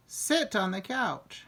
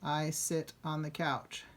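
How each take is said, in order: First: "Sit on the couch" a little louder and slow, as an order; a bit louder. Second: Said in the usual way. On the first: Shown as a demonstration. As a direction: tell them firmly to sit on the couch. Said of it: "Just said it a bit louder". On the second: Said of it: "So we say".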